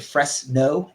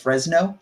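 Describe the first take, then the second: First: The middle consonant is a hissing s sound. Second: The middle consonant is a buzzing z sound. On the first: The speaker calls it wrong. "almost like he was making two words there ... it was like an S sound in there" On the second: The speaker calls it right. "with that like Z sound"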